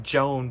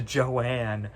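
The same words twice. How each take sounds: First: "Joan" as one syllable, like the name Joan; "Joan" said as the written name Joan. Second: "Joanne" in two syllables, jo-ANNE; "Joanne" with a clear second syllable ann. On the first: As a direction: say "Joan" short, rhyming with bone. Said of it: "where it's spelled like Joan". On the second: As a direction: stretch it into "Joanne", stress on the end. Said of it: "but it's pronounced Joanne". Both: Shown as a demonstration.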